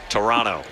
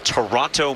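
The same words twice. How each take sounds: First: The second t is dropped, leaving an n. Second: The second t is clearly pronounced. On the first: The speaker calls it right. "It's just an N" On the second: The speaker calls it wrong. "I was saying the Toronto Maple Leafs"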